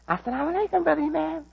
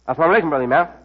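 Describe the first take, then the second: First: The greeting sounds warm and eager to please. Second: The greeting sounds cold and hostile. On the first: The speaker wants to be loved. "Some people speak to me to make me love them" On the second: The speaker wants to hurt the listener. "We greet to hurt people"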